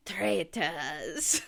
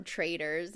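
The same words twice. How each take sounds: First: Badly faked Scottish accent; terrible Scottish accent. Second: Said in the usual way. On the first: Shown as a demonstration. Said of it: "The only Scottish I can do is from Traitors".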